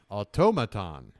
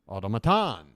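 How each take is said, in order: First: The stress is on the second syllable. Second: The stress is on the fourth syllable. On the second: "or four?"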